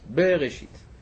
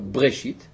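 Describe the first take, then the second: First: A short vowel is heard between b and r. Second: The b is followed directly by r, no vowel. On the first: The speaker calls it right. "אלא בראשית" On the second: The speaker calls it wrong. "אתה לא אומר בראשית"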